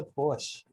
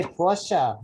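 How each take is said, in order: First: Porsche said as one syllable, PORSH; rejected pronunciation. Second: Porsche said in two syllables, POR-shuh; required pronunciation. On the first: Host showing the version purists reject, Porsche as PORSH. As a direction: end Porsche on SH, no final vowel. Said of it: "not the Porsche". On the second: Host repeating the correction from purists, Porsche as POR-shuh. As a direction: sound the final vowel of Porsche. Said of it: "You have to say Porsche". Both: Shown as a demonstration.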